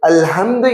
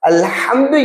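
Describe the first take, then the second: First: The h is a soft sound from deep throat. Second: The h is a harsh sound from mid-throat. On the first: A different word with a changed meaning. The speaker calls it wrong. "என்று ஓதுவது" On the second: All praise. The speaker calls it right. "அல்ஹம்து என்பதை"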